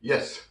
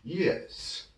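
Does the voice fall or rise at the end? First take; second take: fall; rise. First: The pitch falls at the end. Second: The pitch lifts at the end. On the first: The speaker calls it wrong. "이렇게 떨어지는 발음은 버려버리는 겁니다" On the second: The speaker calls it right. "마지막에 이렇게 들어주는 거를 잊어서는 안 됩니다"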